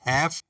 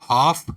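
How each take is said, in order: First: It is said with an American pronunciation. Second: It is said with a British pronunciation.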